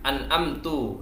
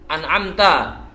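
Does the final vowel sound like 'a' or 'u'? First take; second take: u; a. First: The word ends with a 'u' vowel. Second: The word ends with an 'a' vowel. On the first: The speaker calls it wrong. "dibaca an'amtu" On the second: The speaker calls it right. "Di sini dicontohkan an'amta"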